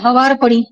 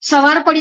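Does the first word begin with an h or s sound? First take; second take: h sound; s sound. First: The first word begins with an h sound. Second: The first word begins with an s sound.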